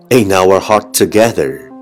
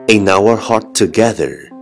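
No difference in how they are said.

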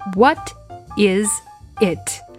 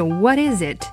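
First: Each word is said separately and clearly. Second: The three words run together into one. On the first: "如果不连读呢" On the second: "如果连读起来呢"

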